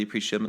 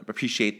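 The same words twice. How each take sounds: First: "appreciate" shortened, its ending swallowed; word cut short. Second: Said in the usual way. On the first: Real, not acted. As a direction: rush through "appreciate" and drop the last syllable. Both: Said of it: "I shortened that word too much".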